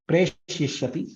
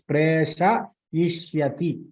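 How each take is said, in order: First: The sha syllable is shortened to half. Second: The sha syllable is fully pronounced. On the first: The speaker calls it wrong. "your pronunciation is" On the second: The speaker calls it right. "That sha should be fully pronounced"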